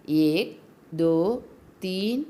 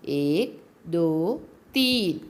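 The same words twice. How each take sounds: The two takes are said the same way.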